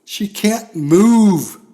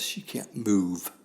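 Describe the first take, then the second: First: "She can't move" slow, high and very loud, with "move" held long; fiery preaching emphasis. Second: Said in the usual way. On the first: Shown as a demonstration. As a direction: hammer out "move" from the pulpit. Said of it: "same words, preached". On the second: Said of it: "same words, later preached".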